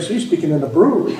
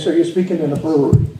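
First: It is said with a positive tone. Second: It is said with a slightly negative tone.

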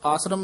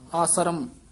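First: The word is said quickly and run together. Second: The word is said slightly stretched out. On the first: The speaker calls it wrong. "ਇਕੱਠਾ ਹੀ ਚਾਲ ਅਨੁਸਾਰ ਆਸਰਮ ਨਹੀਂ ਕਹਿਣਾ" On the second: The speaker calls it right. "ਥੋੜਾ ਜਿਹਾ ਲਮਕਾ ਕੇ ਹੀ ਆਸਰਮ ਆਸਰਮ ਇਸ ਤਰ੍ਹਾਂ ਉਚਾਰਨ ਕਰਨਾ ਹੈ"

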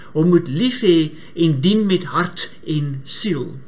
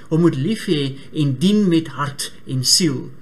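Both takes have the same delivery.

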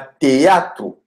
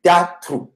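First: The first two vowels are said as separate syllables. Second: The first two vowels run together without a break. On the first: The speaker calls it wrong. "Ce n'est pas avec hiatus. Ce n'est pas théâtre" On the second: The speaker calls it right. "mais c'est théâtre"

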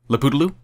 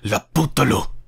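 First: The name is said in a light, playful way. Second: The name is spat out like a harsh insult. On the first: The name is pleasant and fun. "which I have to admit is really fun to say" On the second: The name sounds like an insult. "like a horrible insult"

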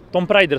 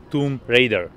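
First: The name is pronounced in a Czech way. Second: The name is pronounced in an English way. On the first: The speaker calls it wrong. "jsem hrál jako malej a všichni to tak známe" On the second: The speaker calls it right. "ale správně je to"

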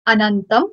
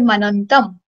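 First: The word begins directly with a vowel sound. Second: The word begins with a linked m sound. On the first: This is the word on its own. "It's Anantam" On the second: The final m of the previous word carries over. "when we'll pronounce it, it would be Manantam"

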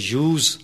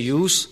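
First: The word ends with a z sound. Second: The word ends with an s sound. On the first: The word is used as a verb. "yani z ki sound aati hai" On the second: The word is used as a noun. "yani s ki sound aati hai"

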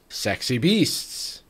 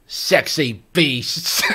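First: It is said in a plain, natural voice. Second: It is said in a put-on accent.

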